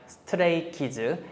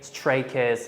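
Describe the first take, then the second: First: It is said with Korean-style pronunciation. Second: It is said with English-style pronunciation. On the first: "he speaks like stray kids" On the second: "just in the English way"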